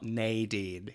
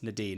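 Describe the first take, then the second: First: The name is said a non-British, non-Irish way. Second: The name is said the British or Irish way. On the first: The speaker calls it wrong. "not Nadine" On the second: The speaker calls it right. "in the U K or Ireland it's Nadine"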